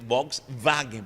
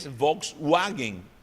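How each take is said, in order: First: The w in wagen sounds like English v. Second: The w in wagen sounds like English w. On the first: The speaker calls it right. "é Volkswagen, porque em alemão o W atua como V" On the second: The speaker calls it wrong. "só que não é Volkswagen"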